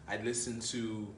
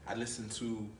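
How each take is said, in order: No difference in how they are said.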